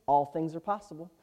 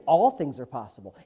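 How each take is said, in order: First: Said in the usual way. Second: ALL hit harder than the rest; All punched, the rest left low; stress on ALL. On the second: Real, not acted. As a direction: lean firmly on the word All. Repeats verse, leaning on ALL.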